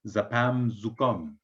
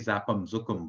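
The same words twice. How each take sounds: First: It is said imitating the winemaker's pronunciation. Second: It is said in the speaker's own pronunciation. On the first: This is how the winemaker says it. The speaker calls it right. "but you say zapam zukum" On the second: This is how the speaker normally says it. The speaker calls it wrong. "I say zapam zukum"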